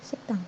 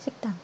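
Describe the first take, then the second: No difference in how they are said.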